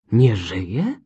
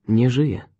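First: Exclaimed question, swinging up at the end; shocked cry. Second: Said in the usual way. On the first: A narrator's reading. Detective hearing of the woman's death, shocked cry. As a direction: cry it out in disbelief. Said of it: "krzyknął Poirot".

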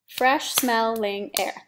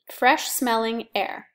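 First: Fresh smelling air, each syllable spaced out slowly; slow syllable count. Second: Said in the usual way. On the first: Shown as a demonstration. Teacher shows students the syllables, slow and spaced. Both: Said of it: "That's four syllables".

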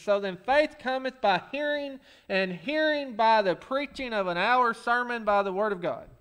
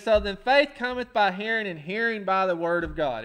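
First: Deadpan slipped-in words in the verse; mock misquote of the verse; joking misquote. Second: Said in the usual way. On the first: Shown as a demonstration. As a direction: read it with a sly added phrase. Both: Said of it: "most of that was right".

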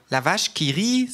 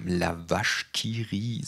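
First: Higher, drawn-out surprise on "La vache qui rit" with rising "rit"; astonished. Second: The narrator nodding along, dry and unhurried; knowing nod. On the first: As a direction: say "La vache qui rit" slowly, as if struck by the likeness. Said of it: "sagt es erstaunt". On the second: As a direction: savour "La vache qui rit" slowly and approvingly. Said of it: "sage ich nickend". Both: A narrator's reading.

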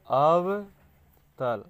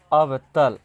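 First: अवतल stretched very slowly, first part held long and loud; slow, loud, syllable-split अवतल; drawn-out key term. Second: अवतल said loud and firm, falling at the end; loud, decisive अवतल; emphatic key term. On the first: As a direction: draw out अव, then let तल fall. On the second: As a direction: punch out अवतल as one word. Teacher announces key term. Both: Shown as a demonstration.

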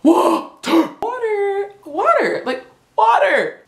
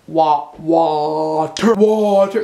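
First: Water said high with a hard T; high, clipped water over and over; mock American water. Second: Water slowed, the T dropped; slow British water. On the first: Drilling viewers on saying water. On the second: Teaching the word water slowly. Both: Shown as a demonstration. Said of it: "Say it with me".

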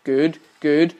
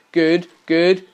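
No difference in how they are said.

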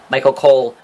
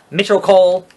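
First: Said in the usual way. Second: "Mitchell Cole" in place of Michael Cole; deliberately wrong "Mitchell Cole"; mispronounced name. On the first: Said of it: "used to more prominently mispronounce". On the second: Retold or imitated. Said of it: "mispronounce everyone's name".

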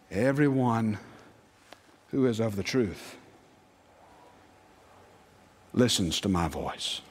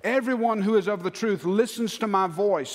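First: Low, hushed-pitch recitation with long pauses; solemn scripture quote. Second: Forceful, driving recitation; emphatic scripture quote. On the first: Jesus speaks at the sermon's close, low and solemn. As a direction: let each phrase sink in, low and grave. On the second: Preacher drives the verse home to the congregation, emphatic. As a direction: proclaim the verse with punch. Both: Acted.

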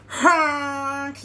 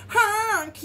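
First: Loud, long truck honk; yelled honk. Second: High, loud mock-alarmed honk; scared honk. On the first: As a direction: blast it like a bossy horn. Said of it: "yelled the dump truck". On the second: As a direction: honk it higher, like a truck in trouble. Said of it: "and he sounded scared". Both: A narrator's reading.

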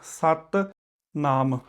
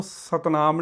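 First: ਸਤਨਾਮ as two words, doubled t in ਸਤ; ਸਤਨਾਮ slowly split after a firm ਸਤ; correct split pronunciation. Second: ਸਤਨਾਮ quickly as one word; single light t in ਸਤਨਾਮ, no gap; wrong joined pronunciation. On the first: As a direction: hold the t, pause, then ਨਾਮ. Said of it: "ਇਹਦਾ ਉਚਾਰਨ ਇਸ ਤਰੀਕੇ ਨਾਲ". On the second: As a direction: run ਸਤ straight into ਨਾਮ in ਸਤਨਾਮ. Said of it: "ਇਹਨੂੰ ਸਤਨਾਮ ਨਹੀਂ ਕਹਿਣਾ". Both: Shown as a demonstration.

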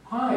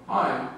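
First: Much higher, louder bright greeting; cheery woman. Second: Said in the usual way. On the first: Retold or imitated. Mother greeting teacher at parent night, high and cheery. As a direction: chirp a sunny hello. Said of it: "woman sticks her head in your classroom and goes". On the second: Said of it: "And I go".

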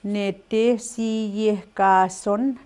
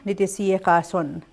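First: "Nete si ye ka son" slow with each syllable apart. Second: "nete si ye ka son" said quickly as one smooth phrase; natural speaker way. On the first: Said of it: "saying it syllable by syllable". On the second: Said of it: "the way a speaker would say it". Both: Shown as a demonstration.

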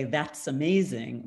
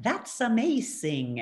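First: Said in the usual way. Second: Slow "That's amazing", pitched higher, with "That's" stressed and drawn out; accented "That's amazing". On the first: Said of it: "but I pronoun-, I say it more like". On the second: Shown as a demonstration. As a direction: say "That's amazing" the way her mother's accent shapes it. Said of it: "I say it more like".

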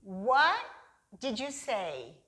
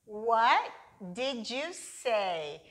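First: What did you said with the t dropped, wa; reduced American way. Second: Slow and separated, a pause after What; slow, word by word. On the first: Teacher showing how Americans shorten the question. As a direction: blend What into did like a native. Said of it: "vamos falar igual a eles". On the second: Teacher showing how learners say it at first. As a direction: break it into careful separate words. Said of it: "É assim que você aprende". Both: Shown as a demonstration.

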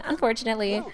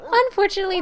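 First: Said in the usual way. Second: "unfortunately" pitched way up and louder; high, emphatic "unfortunately"; emphatic repeat. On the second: Real, not acted. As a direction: hit "unfortunately" high and hard. Repeats word with mock emphasis.

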